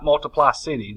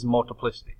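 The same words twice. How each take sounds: First: Multiply city split into two words, MULtiply CIty; wrong pronunciation. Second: Multiplicity said as one word, stress on PLI: multiPLIcity; correct pronunciation. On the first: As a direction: mispronounce it on purpose as multiply city. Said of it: "This is not multiply city". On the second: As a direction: say multiplicity properly, stress on the third syllable. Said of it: "This is multiplicity". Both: Shown as a demonstration.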